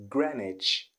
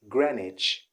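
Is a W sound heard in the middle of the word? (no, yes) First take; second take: no; no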